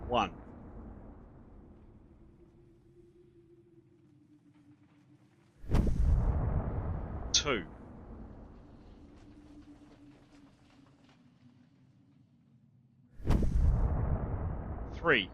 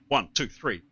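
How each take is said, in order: First: The counts are spaced out slowly. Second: The counts come quickly one after another. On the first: The speaker calls it wrong. "not like that" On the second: The speaker calls it right. "all after each other"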